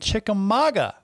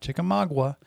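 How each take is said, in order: First: The name ends with the sounds "mauga". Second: The name ends with the sounds "magua". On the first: The speaker calls it right. "It's M-A-U-G-A" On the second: The speaker calls it wrong. "not M-A-G-U-A"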